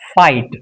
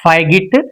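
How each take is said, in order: First: The gh is silent in the word. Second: The gh is sounded in the word. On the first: The speaker calls it right. "It's fight. So G H is silent" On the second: The speaker calls it wrong. "It's not figit"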